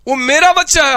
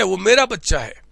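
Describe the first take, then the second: First: Louder, punching मेरा with pride; proud louder insistence. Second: Said in the usual way. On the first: Acted. Teacher insists to doubting student his son is special, louder and proud. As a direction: insist it's your kid, loudly.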